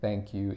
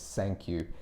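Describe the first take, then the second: First: The first word begins with a 'th' sound. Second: The first word begins with an 's' sound. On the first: The speaker calls it right. "Instead of saying thank you" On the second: The speaker calls it wrong. "and that's not how it's pronounced"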